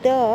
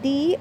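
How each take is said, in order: First: It ends in a short, weak vowel. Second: It ends in a long 'ee' vowel. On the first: "it can be pronounced in two different ways" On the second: "when it is preceding ಎನ್ article I mean ವವೆಲ್ sound"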